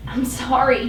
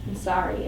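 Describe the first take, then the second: First: "sorry" falling, gently begging; pleading. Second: Softly, "sorry" low and falling; muttered apology. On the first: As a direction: plead for her forgiveness. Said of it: "he pleads". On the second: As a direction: mumble it as she leaves. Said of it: "I hear him mutter behind me". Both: Acted.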